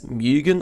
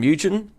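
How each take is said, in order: First: The name is said the Japanese way. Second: The name is said the anglicized way. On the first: This is the technically correct pronunciation. "technically Mugen is pronounced as Mugen" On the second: This is the speaker's preferred pronunciation. "I prefer the pronunciation Mugen"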